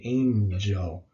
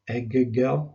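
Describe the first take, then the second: First: The middle is said with an ng sound. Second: The middle is said without an ng sound. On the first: The speaker calls it right. "We say angel" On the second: The speaker calls it wrong. "We don't say"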